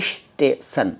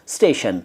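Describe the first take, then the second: First: An extra 'ish' sound comes before station. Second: Station starts directly with no extra sound. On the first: The speaker calls it wrong. "कुछ लोग कहते हैं इश स्टेशन, बिल्कुल गलत हैं दोनों" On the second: The speaker calls it right.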